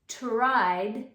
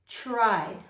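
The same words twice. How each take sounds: First: It begins with a clearly separated t and r. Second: It is said quickly, beginning with a ch sound. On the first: "you want to emphasize the tara when you say it" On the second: "when we say it quickly, it is going to sound like tried, like a ch-ra"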